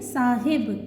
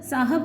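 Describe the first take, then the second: First: The second syllable has an 'i' vowel. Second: The second syllable has an 'a' vowel. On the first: The speaker calls it right. "तीसरा मकसूर है" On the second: The speaker calls it wrong. "आप लोग अक्सर साहब बोल देते हैं"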